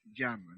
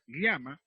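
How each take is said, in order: First: "llama" said as "yama", with a y; yeísmo. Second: "llama" said with ly, as "lyama"; palatal LL. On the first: Teacher shows coastal Spanish, ll as y. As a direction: turn the ll of "llama" into y. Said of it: "el castellano costeño usa el yeísmo". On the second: Teacher contrasts Andean and coastal speech, palatal LL. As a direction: give "llama" an l-plus-y onset. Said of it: "En lugar de decir llama". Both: Shown as a demonstration.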